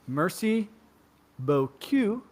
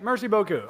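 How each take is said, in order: First: The last syllable sounds like the letter Q. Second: The last syllable ends in an 'oo' vowel. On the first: Thank you, nice backside. The speaker calls it wrong. "Instead of coup, it's Q" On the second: Thank you very much. The speaker calls it right. "thank you very much"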